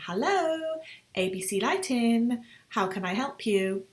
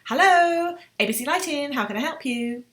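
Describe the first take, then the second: First: The greeting is said at a slower pace. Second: The greeting is said at a very fast pace. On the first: "Notice the tonality in the voice. Always receptionists are quite friendly" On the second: "often they say this part really fast"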